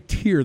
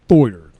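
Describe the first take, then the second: First: The vowel sounds like 'ear'. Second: The vowel sounds like 'oy'. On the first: The speaker calls it wrong. "they don't say tier" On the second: The speaker calls it right. "they say like Thoyer"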